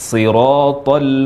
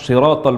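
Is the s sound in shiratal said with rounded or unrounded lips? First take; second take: unrounded; rounded. First: The s sound is made with unrounded lips. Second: The s sound is made with rounded lips. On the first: The speaker calls it right. "Mengucapkan shad tanpa membulatkan bibir" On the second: The speaker calls it wrong. "membaca huruf shad dengan membulatkan bibir"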